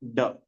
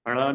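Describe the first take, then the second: First: The consonant is a full retroflex stop. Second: The consonant is a quick retroflex flap. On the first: The speaker calls it right. "ड पढ़ते हैं उसको" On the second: The speaker calls it wrong. "ड़ नहीं"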